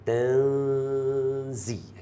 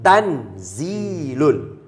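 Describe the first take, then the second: First: The n is hidden in a nasal sound. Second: The n is pronounced clearly and distinctly. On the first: "Nama hukum dia ikhfa. Sebab tu bunyi dia tanzi" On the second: "kita nak sebut izhar, dia akan jadi tanzilun. Ha, tan clear"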